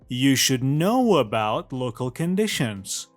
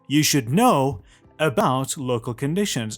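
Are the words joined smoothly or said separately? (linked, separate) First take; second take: linked; separate. First: The words run together with linking sounds between them. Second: Each word is said separately without linking sounds. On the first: The speaker calls it right. "اینو لینک کردم" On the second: The speaker calls it wrong. "I didn't read it like"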